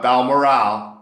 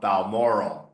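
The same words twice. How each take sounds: First: The ending does not rhyme with laurel. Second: The ending rhymes with laurel. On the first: The speaker calls it wrong. "Not Balmoral" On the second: The speaker calls it right. "because it rhymes with laurel"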